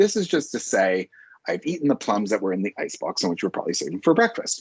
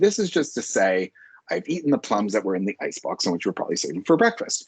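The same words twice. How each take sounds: First: There is a short break partway through. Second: The same.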